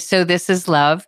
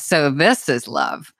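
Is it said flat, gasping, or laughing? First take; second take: flat; laughing. First: It is said in a flat, neutral tone. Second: It is said with a laugh, sounding happy.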